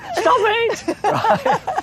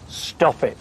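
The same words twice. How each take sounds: First: It is said in a panicked, frantic way. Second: It is said in a calm, controlled way.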